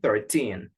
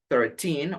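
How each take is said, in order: First: The stress is on the second syllable. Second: The stress is on the first syllable. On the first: "or at the end" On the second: "a stress at the beginning"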